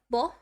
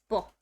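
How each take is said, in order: First: The syllable is released softly and drawn out. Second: The syllable is released abruptly and quickly. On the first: The speaker calls it wrong. "instead of bull" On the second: The speaker calls it right. "It's just very prompts. It needs to come out faster"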